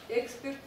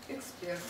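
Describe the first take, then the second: First: The stress is on the first syllable. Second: The stress is on the last syllable. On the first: The speaker calls it wrong. "Вы не будете говорить" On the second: The speaker calls it right. "с ударением на последнем слоге"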